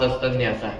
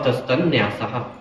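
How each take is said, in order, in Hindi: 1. nyasa से पहले का n छोटा और बिना बल का है। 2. nyasa से पहले का n देर तक रुका हुआ और बल वाला है। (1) "ऐसा पढ़ सकते हैं" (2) "उस पर बल दिया जाता है।"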